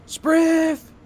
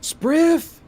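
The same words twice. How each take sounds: First: Very high, loud repeated call; second yell to the back room; yelling again. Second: Very high, loud call to the back room; shrill yell over her shoulder; yelling a name. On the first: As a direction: call him louder, impatient. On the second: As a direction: shout for him across the shop. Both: Acted. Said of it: "turns over her shoulder and yells".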